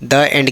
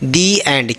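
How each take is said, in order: First: 'The' is said with a short 'thuh' vowel. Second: 'The' is said with a long 'thee' vowel. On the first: The speaker calls it wrong. "द end के जगह में" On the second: The speaker calls it right. "दी एंड, क्यों, क्योंकि उसके बगल में क्या है, वोवेल्स है"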